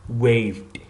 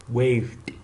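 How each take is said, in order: No difference in how they are said.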